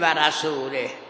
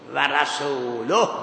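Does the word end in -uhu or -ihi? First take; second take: -ihi; -uhu. First: The word ends in the vowels i-hi. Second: The word ends in the vowels u-hu. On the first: God is free of the idolaters and of the Messenger. The speaker calls it wrong. "نمیتونیم بگیم و رسوله" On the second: The Messenger is also free of the idolaters. The speaker calls it right. "قرائت قرآن ما هم و رسول اکفست به جای الله. الله محلش مرفوع"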